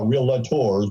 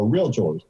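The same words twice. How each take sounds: First: The word is said with three syllables. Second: The word is said with two syllables. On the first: The speaker calls it wrong. "It is not a three-syllable word. We are, we're not realtors" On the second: The speaker calls it right. "realtor is a two-syllable word"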